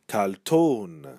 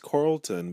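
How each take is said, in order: First: The final syllable is drawn out and nasal. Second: The final syllable is short and plain.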